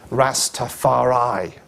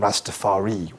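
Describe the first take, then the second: First: The final syllable is stressed. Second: The final syllable is unstressed. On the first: "They say they stress the I" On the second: "which is how we might properly pronounce it"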